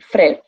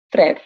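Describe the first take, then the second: First: The word has one syllable, vowels merged together. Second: The same.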